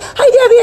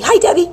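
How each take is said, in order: First: Higher, louder sing-song hello; calling out. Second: Said in the usual way. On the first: Pretend. Greeting her friend Debbie downstairs, calling out loud. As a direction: call up to her like she's downstairs. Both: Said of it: "I'm like".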